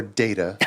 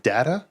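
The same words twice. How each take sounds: First: Data as DAY-tuh; data, first syllable rhyming with say; long-a data. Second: Data as DAT-uh; data, first vowel flat as in hat; short-a data. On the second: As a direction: say data with the a of cat. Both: Shown as a demonstration. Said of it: "is it data or data".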